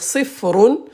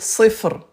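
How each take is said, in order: First: The word ends with a final vowel sound. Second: The word ends on a bare consonant. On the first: The sentence continues after the word. "Si je continue, donc je vais dire" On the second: The speaker stops at the end of the sentence. "mais si je m'arrête, je vais dire"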